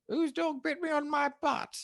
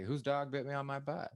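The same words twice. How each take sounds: First: High, posh-Queen English accent on the test line. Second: Said in the usual way. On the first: Shown as a demonstration. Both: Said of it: "say an English accent".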